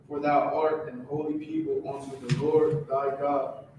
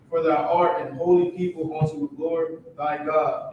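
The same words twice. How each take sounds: First: It is read at a softer volume. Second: It is read at a louder volume.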